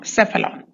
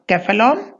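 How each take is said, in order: First: The word begins with an s sound. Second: The word begins with a k sound. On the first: It follows the English spelling rule. "so it should be soft" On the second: It follows the original language's rule. "C should be hard"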